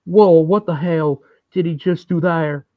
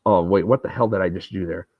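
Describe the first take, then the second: First: Higher, in a put-on Southern politician voice; a hammed-up Bill Clinton voice. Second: Said in the usual way. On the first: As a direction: turn the quip into a folksy campaign aside. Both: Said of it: "That's my impression of Bill Clinton".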